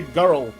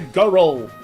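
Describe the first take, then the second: First: The r is plain, with one syllable. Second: The r is rolled like its own syllable. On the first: The speaker calls it wrong. "you can't just say girl" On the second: The speaker calls it right. "As if the roll is its own syllable"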